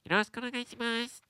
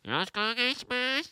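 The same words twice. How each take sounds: First: It is said nasally, with the nose plugged. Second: It is said in a hunched old man's voice.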